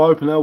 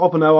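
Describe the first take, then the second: First: "open L" with "open" starting on a long "oh". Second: "open L" with "open" starting on a short "o", like "opp-en". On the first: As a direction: say "open L" as "OH-pen-ell". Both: Shown as a demonstration. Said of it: "whatever which way you wanna say it".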